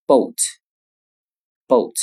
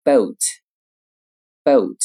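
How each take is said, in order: First: Boat in an American accent, back vowel gliding to u; teacher reading boat in American English. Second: Boat in a British accent, rounded vowel; teacher reading boat in British English. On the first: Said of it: "而美音读成". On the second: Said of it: "英音读成". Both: Shown as a demonstration.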